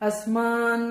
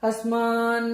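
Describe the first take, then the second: The two takes are said the same way.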